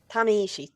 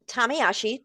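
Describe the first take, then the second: First: The name is said with an 'ishi' ending. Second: The name is said with a 'yashi' ending. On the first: The speaker calls it right. "I get it wrong every single time" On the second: The speaker calls it wrong. "please tell me I said that right"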